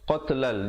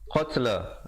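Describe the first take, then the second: First: The word runs straight into the next. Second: The word ends in a full stop. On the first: The recitation continues without a break. "kalau nak pilih untuk wasal sambung" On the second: The recitation pauses here. "jadi waqaf dengan dua harakat"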